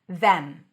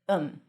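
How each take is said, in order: First: It has a full th and clear e vowel. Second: The th is dropped, leaving a short um. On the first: "When it's stressed, it's pronounced with a voice th, the, tongue out, then e, as in red" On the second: "sometimes you even drop the th. And then it sounds like um"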